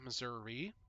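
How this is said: It is said the Missouri city way.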